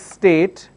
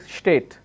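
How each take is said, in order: First: The word begins with a plain s sound. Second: The word begins with an sh sound. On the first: The speaker calls it right. "If I have a word which is state" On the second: The speaker calls it wrong. "they end up saying state. Now this is incorrect"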